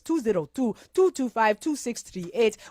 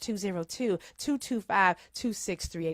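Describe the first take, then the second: First: The number is read in a Wakanda accent. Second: The number is read in a normal voice.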